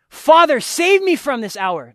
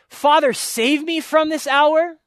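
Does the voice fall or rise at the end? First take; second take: falls; rises. First: The voice falls at the end, a plea. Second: The voice rises at the end, a question.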